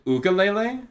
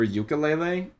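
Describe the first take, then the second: First: The word begins with a plain 'oo' sound. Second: The word begins with a 'yoo' sound. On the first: "Is it oo?" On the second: "I thought you pronounced it like it starts with a Y"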